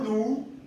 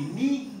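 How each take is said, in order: First: The vowel sounds like a plain oo. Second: The vowel sounds like a plain ee. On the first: "No nu" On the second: "ni ni"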